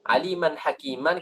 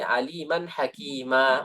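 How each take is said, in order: First: "aliman hakiman" with both final "an" endings sounded; full tanwin ending. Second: "hakima" drawn out, with no final n; pausal ending. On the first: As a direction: end "hakiman" on an audible n. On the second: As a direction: stop on "hakima" with a long open a. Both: Shown as a demonstration. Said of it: "kita berhenti aliman hakima".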